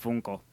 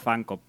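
First: The first vowel is a Spanish 'oo' sound. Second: The first vowel sounds like English 'fun'. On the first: This is how people in Spain say the name. "sobre todo en España, todo el mundo pronuncia Funko" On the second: This is the original way to say the name. "Realmente se pronuncia Funko"

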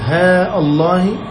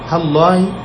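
First: The vowel of ha is long. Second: The vowel of ha is short. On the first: "مع إثبات ألفها" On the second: "وحذفها"

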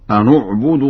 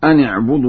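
First: The n is followed by a u vowel. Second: The n is followed by an i vowel.

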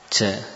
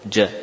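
First: The sound is made loosely, too far forward. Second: The sound is made firmly, between the two. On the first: The speaker calls it wrong. "mengucapkan seenaknya" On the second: The speaker calls it right. "itulah huruf jim"

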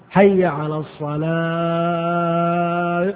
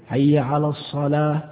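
First: The vowels are stretched very long and melodically. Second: The vowels are short, with no drawn-out melody. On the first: This is an over-embellished call that departs from plain Arabic. The speaker calls it wrong. "مد 60 مدا" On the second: This is the plain, clipped call without embellishment. The speaker calls it right. "هذا الجزء"

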